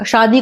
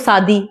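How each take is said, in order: First: It begins with an sh sound. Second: It begins with an s sound. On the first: The speaker calls it right. "सा शा में अंतर नहीं समझ में आता" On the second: The speaker calls it wrong. "शादी को सादी"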